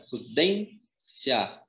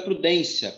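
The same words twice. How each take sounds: First: "prudência" stretched out slowly in separate syllables. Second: Said in the usual way. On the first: Shown as a demonstration. Teacher showing students the syllables of "prudência", slowly split. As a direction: break "prudência" into slow syllables, leaning on "dên".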